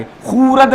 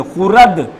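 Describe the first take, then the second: First: खुरद with a drawn-out "khoo", as if the vav were read; wrong long vowel. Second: खुरद with a short "khu", vav left silent. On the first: Teacher showing how not to read it, खुरद with long "oo". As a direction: stretch the first vowel of खुरद into "khoooo-rad". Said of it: "खुरद नहीं पढ़ेंगे". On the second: Teacher modelling the reading for students, खुरद with short "u". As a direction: keep the first vowel of खुरद short: "khu-rad". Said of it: "इसको कैसे पढ़ेंगे". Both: Shown as a demonstration.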